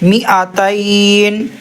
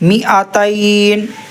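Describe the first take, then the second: No difference in how they are said.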